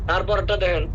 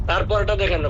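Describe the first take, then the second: Both takes have the same delivery.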